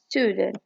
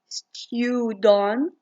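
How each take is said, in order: First: It is said in an American accent. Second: It is said in a British accent. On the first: "In American, they say it as" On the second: "In British, they say it as"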